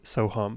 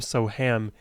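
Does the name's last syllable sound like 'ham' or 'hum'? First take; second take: hum; ham. First: The last syllable sounds like hum. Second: The last syllable sounds like the word ham. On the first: This is the name's true pronunciation. The speaker calls it right. "the true pronunciation is Soham" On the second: This is how most Western speakers read it. The speaker calls it wrong. "most people in the West would understandably pronounce my name Soham"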